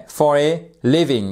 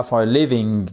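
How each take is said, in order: First: "living" stressed on its first syllable, LIV-ing; "for a LIVing", accent on the first syllable. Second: "living" wrongly stressed on its last syllable, liv-ING; "for a livING", accent misplaced on the second syllable. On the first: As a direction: hit LIV in "living", let -ing fall away. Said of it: "bien mettre donc cette accentuation sur la première syllabe". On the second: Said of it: "et pas for a living". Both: Shown as a demonstration.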